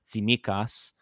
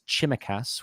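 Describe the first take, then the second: First: The name begins with a 'ts' sound. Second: The name begins with a 'ch' sound. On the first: The speaker calls it right. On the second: The speaker calls it wrong.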